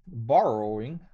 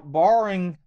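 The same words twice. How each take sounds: First: "borrowing" with the middle o sounded, bor-oh-ing; careful standard pronunciation. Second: "borrowing" slurred short, the middle o swallowed; country pronunciation. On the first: Host correcting his country talk, "borrowing" said out in full. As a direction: say all syllables of "borrowing", lifting at the end. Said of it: "not country talk". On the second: Louisiana host tripping on a word, "borrowing" squashed in country talk. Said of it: "not country talk, borrowing". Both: Shown as a demonstration.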